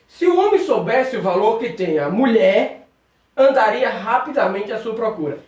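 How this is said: The pause comes right after 'a mulher'. The man would go looking for the woman. "Vamos colocar vírgula depois do termo mulher"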